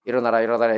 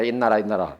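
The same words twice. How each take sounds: First: Said in the usual way. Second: 일어나라 run together fast into 있나라, 있나라; 빨리 발음해서 있나라; fast slurred. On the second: Shown as a demonstration. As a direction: squash 일어나라 into a quick 있나라. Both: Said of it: "빨리 발음해 보세요".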